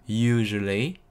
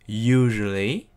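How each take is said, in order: No difference in how they are said.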